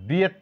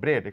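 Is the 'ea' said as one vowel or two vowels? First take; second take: two vowels; one vowel. First: The vowel is split into two sounds. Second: The vowel is said as one sound. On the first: The speaker calls it wrong. "ব্রিয়েট না করে" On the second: The speaker calls it right. "এখানে এ silent"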